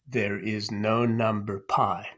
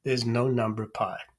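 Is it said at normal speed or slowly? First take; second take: slowly; normal speed. First: It is said slowly and deliberately. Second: It is said at a normal speed.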